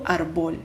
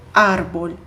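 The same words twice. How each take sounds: First: Árbol as "ar-BOL"; árbol with a heavy BOL; wrong final stress. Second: Árbol as "AR-bol"; árbol with stress up front, light ending; correct first-syllable stress. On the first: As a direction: stress árbol on the second syllable. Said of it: "Mas eu não digo". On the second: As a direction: punch the AR of árbol. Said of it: "eu digo árbol". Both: Shown as a demonstration.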